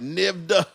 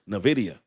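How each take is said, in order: First: The name is said with two syllables. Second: The name is said with four syllables. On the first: The speaker calls it wrong. "I pronounced it the ticker" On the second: The speaker calls it right. "The chat showed me how to pronounce it right"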